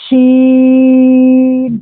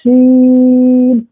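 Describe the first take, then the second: First: شین with a long, thick ش hiss, not a whistle; drawn-out sheen. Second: سین with a long hissing س, held like a whistle; drawn-out seen. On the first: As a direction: stretch شین, make the hiss heavy. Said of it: "آواز کو موٹی کرنی پڑے گی". (شین کو کھینچ کر بھاری آواز میں) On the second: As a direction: stretch سین slowly, hiss the س. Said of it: "جیسے". (سین کو کھینچ کر سیٹی کی طرح) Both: Shown as a demonstration.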